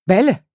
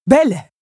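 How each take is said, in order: First: Loud call with a rise. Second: Louder, higher thundering call with a fall. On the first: Beast calling Belle at the locked door, loud. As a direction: call her name through the door. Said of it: "appela-t-il". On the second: Beast hammering the door, booming her name. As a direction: boom "Belle" down at the door. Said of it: "tonna-t-il". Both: A narrator's reading.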